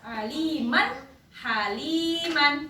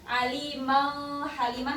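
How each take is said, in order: First: The final n is pronounced clearly and distinctly. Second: The final n blends into a different sound. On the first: The speaker calls it right. "tapi jelas" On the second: The speaker calls it wrong.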